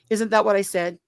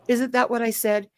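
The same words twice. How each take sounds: The two takes are said the same way.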